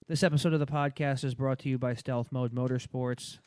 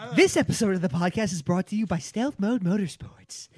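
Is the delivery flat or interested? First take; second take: flat; interested. First: It is read in a flat monotone. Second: It is read with lively, interested energy.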